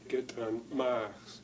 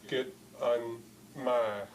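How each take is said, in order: First: The t is a popped ejective sound. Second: A glottal stop follows the t sound. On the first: The speaker calls it wrong. "you would pronounce it as get un" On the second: The speaker calls it right. "what follows the T is a glottal stop"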